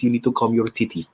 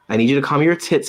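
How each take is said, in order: First: It is said in a put-on accent voice. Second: It is said in her normal voice.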